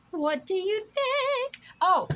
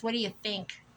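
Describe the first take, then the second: First: Silly high voice. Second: Said in the usual way. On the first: Pretend. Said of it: "plain take first". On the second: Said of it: "repeated in a silly voice".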